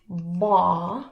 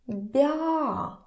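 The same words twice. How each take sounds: First: The consonant is hard, not palatalized. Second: The consonant is soft, palatalized. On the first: "So we have hard consonants" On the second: "and it can be soft"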